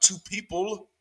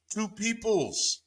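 First: High, slow "people" left rising; slow, pointed stress on "people"; contrast on people. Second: High, stretched "peoples" falling at the end; slow, softer, emphatic "peoples"; stressed plural PEOPLES. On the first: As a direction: set up "people" as the wrong word, ending upward. Contrasts singular wording with plural. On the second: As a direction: draw out "peoples" to land the plural. Corrects to the plural form. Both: Shown as a demonstration.

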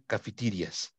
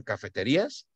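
First: Cafeterias said the English way, ca-fe-TI-rias; English pronunciation. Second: Said in the usual way. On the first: Shown as a demonstration. Teacher models cafeterias for the students, English pronunciation. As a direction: say cafeterias in English, not Spanish. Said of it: "pues pronuncia cafeterias". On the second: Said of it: "se escribe igual que español en cafeterías".

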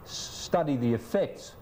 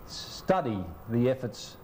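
First: "effects" with the stress on its second syllable; careful retake saying "effects"; corrected word. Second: "efforts" in place of effects, stressed up front; misspoken word. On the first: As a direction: restart and land on "effects". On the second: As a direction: slowly misread it as "efforts". Fluffed line, then corrected. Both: Real, not acted.

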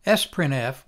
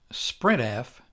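First: "Sprintf" with the S said as a letter, "ess-print-eff"; sprintf spelled-out S. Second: "sprintf" with S blended in, "sprint-eff"; no separate "ess" at the start of "sprintf"; sprintf run together. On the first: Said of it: "which is sometimes pronounced". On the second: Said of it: "which is sometimes pronounced sprintf". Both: Shown as a demonstration.

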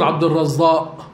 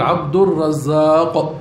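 First: عبد الرزاق slurred with a rise, final q dropped; wrong pronunciation. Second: عبد الرزاق said slowly with every sound clear; correct pronunciation. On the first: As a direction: say عبد الرزاق loosely as arrezza, swallowing the end. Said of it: "ما بنقول". (نطق عبد الرزاق خاطئ بحذف القاف في آخرها) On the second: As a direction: spell out عبد الرزاق carefully, ending on a clear q. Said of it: "نقول". (نطق عبد الرزاق ببطء وبوضوح حتى القاف) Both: Shown as a demonstration.

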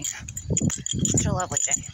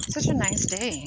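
First: Slow, breathy, dreamy murmur. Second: Said in the usual way. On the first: Acted. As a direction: sigh it out slowly like a daydream. Repeats the day remark differently.

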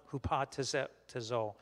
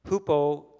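First: Hupatazo said slowly and softer, syllable by syllable; corrected Greek word. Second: Hupotazo said out loud and firm, each syllable clear; Greek word tried aloud. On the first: Teacher to class, retrying the Greek word hupatazo carefully. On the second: Teacher to Bible class, trying the Greek hupotazo aloud. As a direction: say hupotazo boldly, stress unsure. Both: Shown as a demonstration. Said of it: "the emphasis on the, the wrong, uh, syllable".

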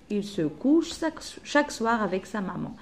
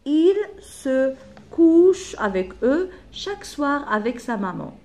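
First: Said in the usual way. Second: Loud, higher, each word spaced out slowly; slow dictation. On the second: Shown as a demonstration. Teacher gives pupils the last animal line, slow loud dictation. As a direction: dictate "Il se couche" one word at a time.

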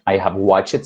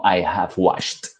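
First: "watched" said as "watch-et" with an extra vowel; wrong "watched". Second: "watched" in one syllable ending in "sht"; slow, clipped "watched" with no extra vowel; right "watched". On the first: Teacher showing the common wrong pronunciation. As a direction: stretch "watched" into two syllables. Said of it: "Ya usted no va a decir". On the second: Teacher modeling the correct past tense slowly. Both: Shown as a demonstration.

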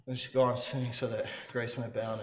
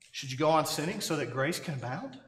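First: Low, soft, flat statement: "You should go on sinning"; reading a question as if it were advice; misread as a statement. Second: A real question, rising at the end, "should you go on sinning"; said as a question, not a command; asking it as a question. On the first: Retold or imitated. Preacher he heard misreading the verse as a statement. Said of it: "A preacher one time read that". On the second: Shown as a demonstration. Preacher asking what Paul really asked. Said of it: "Paul says".

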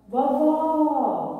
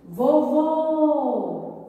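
First: VOVÓ called as to someone far off, last syllable open and long; stressed, drawn-out open final vowel in "Vovó"; calling out, open Ó. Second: VOVÔ called as to someone far off, last syllable closed and long; stressed, drawn-out closed final vowel in "Vovô"; calling out, closed Ô. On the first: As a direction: call "Vovó" louder and higher, stretching an open final Ó. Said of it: "chamar essa palavra como que". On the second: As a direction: call "Vovô" louder and higher, stretching a rounded final Ô. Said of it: "Pois vamos chamar". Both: Shown as a demonstration.

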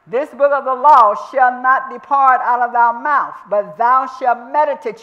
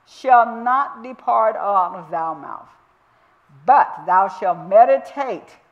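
First: Louder, higher, the verse proclaimed at full force; loud preaching. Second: Slow, measured reading of the verse; slow scripture reading. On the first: Real, not acted. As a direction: thunder the verse out to the congregation. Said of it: "You're gonna mutter". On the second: Shown as a demonstration. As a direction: lay each word of the verse down slowly. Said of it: "And that word meditate means to murmur".

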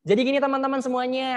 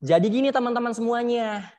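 First: High-pitched throat voice; suara tenggorokan. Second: Projected chest voice; suara dada. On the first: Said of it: "Pakai suara tenggorokan". (suara tenggorokan bernada tinggi) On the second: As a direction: speak out from the chest. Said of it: "Beda kan?". (suara lantang dari dada) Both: Shown as a demonstration.

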